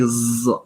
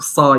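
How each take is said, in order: First: The consonant is voiced, close to z. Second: The consonant is an emphatic s sound. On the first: The speaker calls it wrong. "close to the z sound" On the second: The speaker calls it right. "instead of saying sa"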